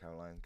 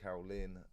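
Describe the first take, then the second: First: The name ends with a 'line' sound. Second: The name ends with a 'Lynn' sound. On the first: The speaker calls it wrong. "not Caroline" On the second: The speaker calls it right.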